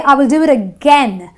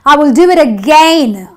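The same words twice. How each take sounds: First: The last vowel is a short 'eh' sound. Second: The last vowel is a long 'ay' sound. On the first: The speaker calls it right. "the A I gives me the eh sound" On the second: The speaker calls it wrong. "I don't say"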